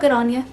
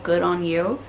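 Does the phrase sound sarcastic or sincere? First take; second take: sincere; sarcastic. First: It is said in a friendly, sincere way. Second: It is said with a sarcastic undertone. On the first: The speaker is simply acknowledging the achievement. "But not in like a mean or sarcastic way" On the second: The speaker is mocking the achievement. "it would have had a little bit of a sarcastic undertone to it"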